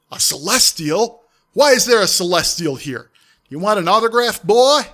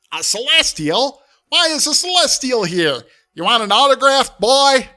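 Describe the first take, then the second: First: Loud mocking demon taunt; loud sneering demon, louder at the end; booming demon voice. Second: High, loud, grating squawk of a voice; much higher, loud, abrasive cartoon parrot; Gilbert Gottfried as Iago. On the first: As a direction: boom it through the portal. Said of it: "a demonic voice ... booming through it". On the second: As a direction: channel the squawking parrot sidekick. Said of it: "channel Iago".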